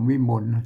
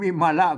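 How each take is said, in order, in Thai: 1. คำนี้พูดสองพยางค์ 2. คำนี้พูดสามพยางค์ครบ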